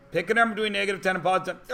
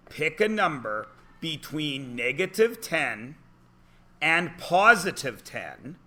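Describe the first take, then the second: First: Rushed mumble. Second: Slow instruction. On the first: Pretend. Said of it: "I do the comedy". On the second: Shown as a demonstration. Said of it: "that's where kids get stuck".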